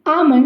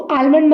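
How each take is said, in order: First: The word is said without an L sound. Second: The word is said with an L sound. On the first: The speaker calls it right. "एल इसमें silent होता है" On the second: The speaker calls it wrong. "इसको आलमंड मत बोलिएगा"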